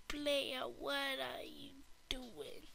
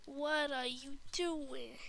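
First: Soft unvoiced whisper, slow. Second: Said in the usual way. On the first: Shown as a demonstration. Kid asking the player in a slow whisper. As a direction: whisper the question slowly.

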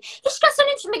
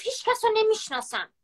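First: Much higher, louder mocking squeal of his words; mocking quote. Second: Higher mocking echo of his words; mocking quote. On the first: Ridiculing her ex's jealous lie for viewers, in a high loud mocking voice. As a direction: mimic his excuse in a shrill louder parody. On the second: Mocking her ex-boyfriend's lie again, in a high sneering voice. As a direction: repeat the excuse in a higher sneering voice. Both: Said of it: "چقدر دروغ میگه".

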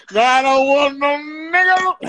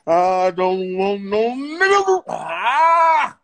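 First: High-pitched theatrical line reading; actor's first take. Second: Slow, straining, overacted cry; pushed actor's take. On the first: Acted. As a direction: declaim it high, like an actor on set. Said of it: "I didn't like the way I said". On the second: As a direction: push it hard, dragging out each word. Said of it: "Let me go push it".

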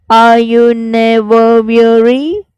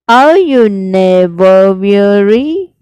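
First: Breathy whisper, slowed; whispered line. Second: Said in the usual way. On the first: Shown as a demonstration. Teacher whispering the poem's question to students. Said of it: "learnt the exact pronunciation". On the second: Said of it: "I'll repeat".

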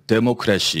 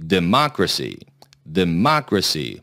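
First: "데모크래시" flat, syllable by syllable, Korean style; Konglish democracy. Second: "Democracy" with a strong, clear beat on mo; stress on mo. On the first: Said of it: "그렇게 발음하면 원어민이 못 알아듣습니다". (콩글리시식 "데모크래시") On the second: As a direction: hit the mo of "Democracy" hard. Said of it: "뭐의 강세를 확실히 주세요". ("Democracy"의 '모'에 확실한 강세) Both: Shown as a demonstration.

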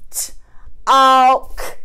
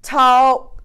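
First: T-alk with a stretched break after the t; split into t and alk. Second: Said in the usual way. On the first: Shown as a demonstration. Teacher splitting a word for pupils, stretched. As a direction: break t-alk into onset and rime. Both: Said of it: "What about in the word talk".

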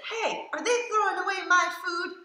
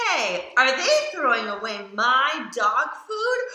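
First: Much higher, half-laughing dog voice; worried dog voice. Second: Said in the usual way. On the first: Retold or imitated. Reader voices the dog fretting over his food, high and giggly. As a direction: squeak it out like an anxious puppy. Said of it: "He says". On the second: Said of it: "dog narrator's line read".

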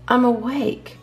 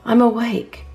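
Both takes have the same delivery.

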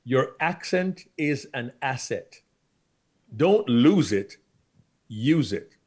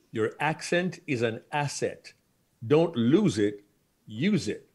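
Both takes have the same delivery.

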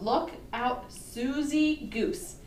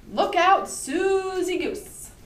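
First: Said in the usual way. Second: High, loud storybook title with drawn-out Susie; dramatic title call. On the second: Acted. Reads title aloud with drama.

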